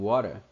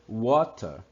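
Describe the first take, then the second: First: It is said in an American accent. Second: It is said in a non-American accent.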